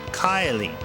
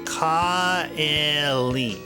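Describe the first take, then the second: First: The name is said quickly with merged vowels. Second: The name is said slowly with separate vowels. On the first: "if you say it fast, it sounds like Kylie" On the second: "if you put all these together"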